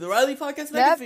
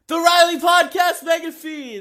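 First: The phrase is said loudly. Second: The phrase is said very loudly, with more power. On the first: "I said it louder like I always do" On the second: "I'm going to wake my mother up"

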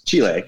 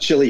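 First: The name is said with a Spanish pronunciation. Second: The name is said with a local English pronunciation. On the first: This is how the name is properly said. "but it's Chile" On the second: This is how people say it locally. "we pronounce it Chile here"

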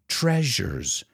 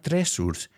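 First: The middle consonant is a zh sound. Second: The middle consonant is a plain s sound. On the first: The speaker calls it right. "The S sounds like zh" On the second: The speaker calls it wrong. "It's not tresurs"

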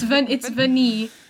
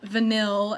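First: The word ends without any L sound. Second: The word ends with an audible L sound. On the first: The speaker calls it right. "It's Vani, ... The L is silent" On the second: The speaker calls it wrong. "not vanille, as these guys have been pronouncing it"

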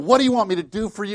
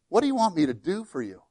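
First: It is hollered with a hostile attitude. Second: It is asked in a plain, calm way.

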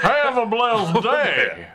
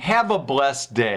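First: It is said in a Southern, Yosemite Sam accent. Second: It is said in a plain accent.

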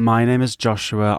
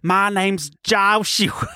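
First: It is spoken in a British accent. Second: It is spoken in an American accent. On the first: "I'm from the UK. This is my voice" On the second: "If I was going to do it as an American"

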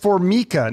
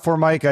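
First: It is not said like the countertop brand. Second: It is said like the countertop brand. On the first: This is the name's own pronunciation. The speaker calls it right. "it's Formica" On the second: This is how people often mispronounce the name. The speaker calls it wrong. "not Formica"

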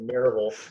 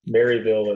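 First: It is pronounced the local Southern way. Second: It is pronounced the plain, non-local way. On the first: This is how a long-time resident says it. "if you live here for very long, you got to say Maryville" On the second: This is how an outsider says it. "Maryville is one way to say it"

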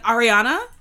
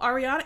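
First: The name is said in an angry, heated way. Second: The name is said in a calm, casual way. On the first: The caller was furious. "He was pissed, okay? He was like" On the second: A plain, ordinary call for someone. "he was not just calling and being, oh"

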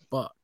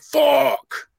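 First: It is said with angry, annoyed frustration. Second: It is said with amazed, impressed excitement. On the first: Something was upsetting. "not fuck" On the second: Something was awesome. "that's what I meant by fuck"

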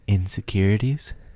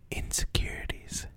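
First: It is said somewhat louder. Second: It is said at a normal, soft volume.

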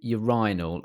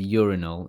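First: It is said with a non-American pronunciation. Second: It is said with an American pronunciation.

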